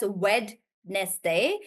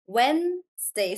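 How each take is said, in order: First: "Wednesday" said very slowly as wed-nes-day, every letter sounded; spelling pronunciation. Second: "Wednesday" said slowly as wenz-day, the d silent; real pronunciation. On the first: Teacher showing students the spelled-out way, not the spoken one. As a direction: sound out "Wednesday" exactly as it is spelled, three parts. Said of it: "not actually pronounced as". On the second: Teacher giving students the correct spoken form. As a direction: say "Wednesday" the natural way, just two parts. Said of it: "It's pronounced as Wednesday". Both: Shown as a demonstration.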